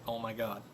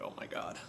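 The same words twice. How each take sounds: First: A soft, hushed "Oh my God"; hushed dismay. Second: A whispered "Oh my God"; whispered dismay. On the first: Hearing that his buddy's oil light was flashing, a hushed "Oh my God". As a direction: breathe it out quietly in disbelief. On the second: Hearing the car died at a red light, a whispered "Oh my God". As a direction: breathe it out as a whisper, stunned. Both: Retold or imitated.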